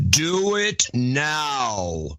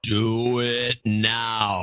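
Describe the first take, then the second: First: Very slow echoing demon command; demonic layered voice. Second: Slow echoing demon command; demonic layered voice. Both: Acted. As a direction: drag it out like a demon. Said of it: "Adam in demon voice".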